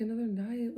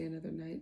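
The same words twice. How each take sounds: First: Higher, louder disbelieving question; retold incredulous echo. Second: Said in the usual way. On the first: Wife balks at staying another night, incredulous. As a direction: throw it back in mock disbelief.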